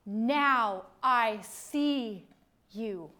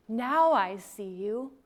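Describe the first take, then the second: First: Slow revelation. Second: Said in the usual way. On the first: Retold or imitated. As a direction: let the realisation land word by word. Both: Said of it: "and you say".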